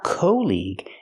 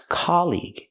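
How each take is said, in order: First: The first vowel is an 'oh' sound. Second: The first vowel is an open 'ah' sound. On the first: The speaker calls it wrong. "It's not co-league" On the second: The speaker calls it right. "it's colleague. It's the open ah sound like hot and stop"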